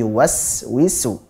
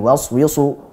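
First: The s sound is sharp, with a clear whistle. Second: The s sound is dull, without a sharp whistle. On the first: The speaker calls it right. "tapi yuwaswisu" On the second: The speaker calls it wrong. "bukan yuwaswisu"

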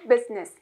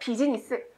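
First: The word is said with two syllables. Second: The word is said with four syllables. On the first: The speaker calls it right. "두 박자. 끊어서 business" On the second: The speaker calls it wrong. "네 박자"

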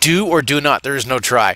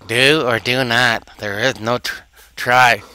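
First: It is said in the speaker's normal voice. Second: It is said in an imitation of Yoda's voice.

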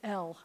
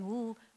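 First: The full letter name is said. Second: Only the bare consonant sound is said. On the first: The speaker calls it wrong. "they'll say L and throw that in there" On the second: The speaker calls it right. "instead of saying L"

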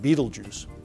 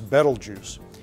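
First: The name is said like the film title. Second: The name is said the usual way. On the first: "if you're a fan of film director Tim Burton, you might pronounce it" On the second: "This is Betelgeuse"

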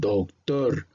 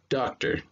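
First: The word is pronounced with Spanish sounds. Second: The word is pronounced with English sounds. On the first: The speaker calls it wrong. "No confundan con el español, que es el doctor" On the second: The speaker calls it right. "sino doctor"

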